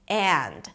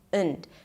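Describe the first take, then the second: First: The word has a full, open vowel. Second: The word has a reduced schwa vowel. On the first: "when I say it properly" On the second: "I just pronounce it as und"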